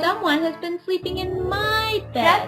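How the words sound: It is squeaked in a tiny little voice.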